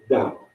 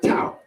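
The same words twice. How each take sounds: First: The word begins with a soft D sound. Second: The word begins with a hard T sound. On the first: The speaker calls it right. "It's pronounced Tao" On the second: The speaker calls it wrong. "It's not Tao"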